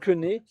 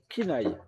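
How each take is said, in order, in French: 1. Le nom se termine par un son 'eh'. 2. Le nom se termine par un son 'eye'. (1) "Et non Kené" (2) "c'est Kinaï"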